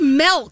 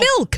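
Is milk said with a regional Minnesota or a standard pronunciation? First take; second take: Minnesota; standard. First: The word has a regional Minnesota pronunciation. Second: The word has a standard English pronunciation. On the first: "In Minnesota, a lot of people. Say milk" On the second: "instead of milk"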